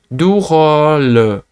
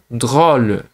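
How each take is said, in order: First: A vowel splits the d and r sounds. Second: The d and r sounds join directly. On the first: "você vai tentar du rôle" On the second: "se você não consegue falar drôle de, de direto"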